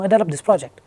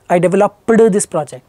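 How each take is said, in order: First: The ED ending is light and natural. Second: The ED ending is over-pronounced and exaggerated. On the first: The speaker calls it right. "It's totally fine and it should be that way" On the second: The speaker calls it wrong.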